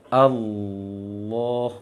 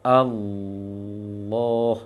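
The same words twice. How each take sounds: No difference in how they are said.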